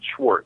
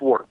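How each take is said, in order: First: The name begins with an 'sh' sound. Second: The name begins with an 's' sound. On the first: The speaker calls it wrong. "I pronounce it Schwartz" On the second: The speaker calls it right. "It's Swartz. There's no C H"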